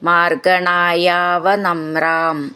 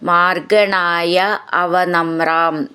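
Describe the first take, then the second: First: The two words run together as one word. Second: The two words are said as separate words.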